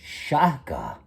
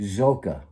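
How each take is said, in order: First: The name begins with an sh sound. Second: The name begins with a z sound. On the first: The speaker calls it right. "it's not Zoka. I said, that's Shaka" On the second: The speaker calls it wrong. "everybody called him Zoka"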